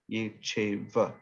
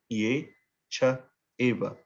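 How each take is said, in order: First: Cha and eva merge into one word, cheva. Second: Cha and eva are separate, with pauses between. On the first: "without that pause becomes" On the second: "the words that are actually being spoken are ye, cha, eva"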